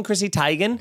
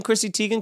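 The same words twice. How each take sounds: First: "Teigen" said as TIE-gin; corrected pronunciation. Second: "Teigen" said as TEE-gin; usual pronunciation. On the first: Asking the co-host about the new name, "Teigen" as TIE-gin. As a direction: say "Teigen" with a long i. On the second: Asking the co-host about the old name, "Teigen" as TEE-gin. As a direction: say "Teigen" with a long ee. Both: Shown as a demonstration. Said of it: "have you started calling".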